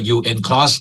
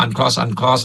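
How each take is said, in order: First: "ยูเอ็น cross" with U and N as separate letters; UN spelled out. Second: "uncross" with the opening read as "un"; pronounced "uncross". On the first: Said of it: "บางคนก็ใช้ เอ่อ ออกเสียงว่า". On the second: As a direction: say "uncross" as one English word, un-cross. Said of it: "ทุกคนได้ยินคำว่า uncross". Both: Shown as a demonstration.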